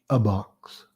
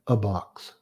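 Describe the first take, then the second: The two takes are said the same way.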